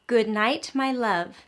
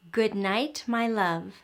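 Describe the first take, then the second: No difference in how they are said.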